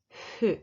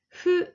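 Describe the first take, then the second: First: The f sound is strong and forceful. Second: The f sound is soft and light. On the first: The speaker calls it wrong. "not strong fu" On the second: The speaker calls it right. "Fu is not fu, but not strong fu"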